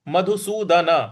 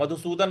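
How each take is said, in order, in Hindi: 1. अंतिम न के बाद पूरा स्वर आता है। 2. अंतिम न बिना स्वर के ही रुक जाता है। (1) "न का उच्चारण पूरा ही आएगा" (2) "मत बोल दीजिएगा"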